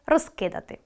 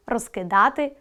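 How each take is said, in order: First: Розкидати with stress on роз, falling; розкидати, hit роз. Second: Розкидати with stress on да, rising; розкидати, lean on да. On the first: Teacher sorting words into columns, stress on роз. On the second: Teacher sorting words into columns, stress on да. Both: Shown as a demonstration. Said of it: "Наголос допомагає розрізняти види".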